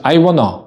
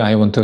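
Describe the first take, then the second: First: The words are squeezed into one short reduced form. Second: Each word is pronounced fully and separately. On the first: "I wanna do something 이런 식으로 표현을 해줄 수 있습니다" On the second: "I want to 같은 경우에도 이게 기능어거든요"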